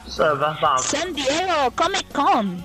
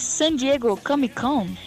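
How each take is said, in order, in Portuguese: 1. É dito com um sotaque mexicano forçado. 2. É dito com um sotaque natural, sem afetação.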